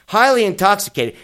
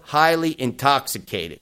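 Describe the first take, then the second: First: "Highly intoxicated" louder and higher, stress on "Highly"; mocking emphasis. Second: Said in the usual way. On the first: Shown as a demonstration. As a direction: hit "Highly" hard, in disbelief.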